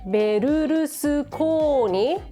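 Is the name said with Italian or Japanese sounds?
Japanese. It has two R-U syllables with added vowels.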